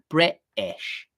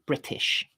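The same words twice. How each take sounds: First: The t is replaced by a glottal stop. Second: The t is pronounced as a clear t. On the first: The speaker calls it wrong. "using glottal stops in place of a t sound" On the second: The speaker calls it right. "basically just use a t sound"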